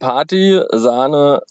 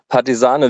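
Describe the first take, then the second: First: It is split into two words with a break. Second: It is said as one word without a break. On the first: It names a party and cream. "es könnte einmal Party, Sahne, Widerstand" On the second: It names a partisan fighter. "oder es könnte auch Partisane, Widerstand sein"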